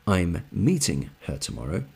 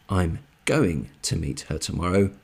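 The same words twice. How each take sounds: First: "meeting" stressed, rising at the end. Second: "going" stressed, rest unhurried. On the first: Teacher giving the second example for comparison, stress on "meeting". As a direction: lean on "meeting", then lift the ending. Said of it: "the emphasis is on". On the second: Teacher contrasting two example sentences for learners, stress on "going". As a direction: lean on the word "going". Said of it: "the emphasis is on the action". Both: Shown as a demonstration.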